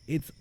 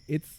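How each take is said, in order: Both takes have the same delivery.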